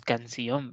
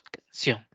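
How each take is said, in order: First: Canción broken into three syllables, can, ci, ón; wrong split of canción. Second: Canción said as two syllables, can and ción. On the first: Teacher to students showing how canción is not said, split in three. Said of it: "no decimos". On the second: Teacher to students showing the correct canción, two syllables. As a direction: say canción the right way, in two beats. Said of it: "Sino que decimos". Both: Shown as a demonstration.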